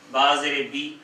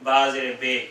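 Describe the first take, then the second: First: بی with a short thin i, not بے; one beat only on بی; correct short vowel. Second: بے with an open e instead of بی; wrong vowel on purpose. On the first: Teacher showing the right vowel in با زیر بی. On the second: Teacher showing the common wrong vowel بے. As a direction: show the mistake with بے. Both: Shown as a demonstration. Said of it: "با زیر بے نہیں ہے".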